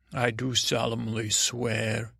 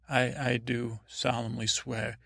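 First: Slow, grave oath-taking voice; solemn oath swearing. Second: Said in the usual way. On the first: Pretend. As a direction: swear it slowly like a knight. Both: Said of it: "hold your hand up like you're swearing".

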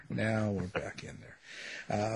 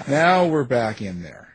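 First: Much softer and slow, like fading away; quieter echo. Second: Said in the usual way. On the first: Shown as a demonstration. Host repeating the line to himself, soft and slow.

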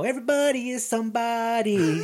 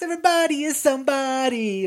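First: Amused, chuckling through the slogan; half-laughing mock inspiration; laughing quote. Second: Higher, proclaimed like a rally cry; mock inspirational slogan. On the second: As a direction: announce it like a motivational poster. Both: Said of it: "this whole inspirational thing".

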